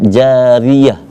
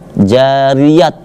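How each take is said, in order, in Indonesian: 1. Kata ini berakhir dengan bunyi h. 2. Kata ini berakhir dengan bunyi t. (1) "Akan tetapi dibaca jariyah" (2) "tidak dibaca jariyat, tidak"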